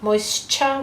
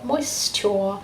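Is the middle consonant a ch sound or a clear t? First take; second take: ch; clear t. First: The middle consonant is a ch sound. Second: The middle consonant is a carefully pronounced t. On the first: This is everyday speech. "we say kind of a ch" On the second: This is a careful voice used to recall the spelling. "we are much more posh"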